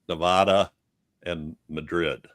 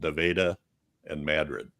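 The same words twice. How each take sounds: First: The names are pronounced the way the spelling suggests. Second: The names are pronounced in the local town way. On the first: This is how the names look written. "spelled Nevada and Madrid" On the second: This is how people there actually say them. "but they're called Nevada and Madrid"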